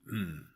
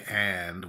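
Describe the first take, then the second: First: The word is reduced to a short nasal hum. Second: The word is said fully with a clear vowel. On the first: The speaker calls it right. "We say, like, mm, that's what we say" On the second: The speaker calls it wrong. "we never say and when we're talking"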